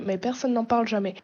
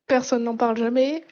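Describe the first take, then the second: First: Said in the usual way. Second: Sceptical repeat, louder; ironic echo. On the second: Acted. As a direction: echo it back with doubt. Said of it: "Dans la communauté S S O, depuis trois quatre ans". (reprise ironique)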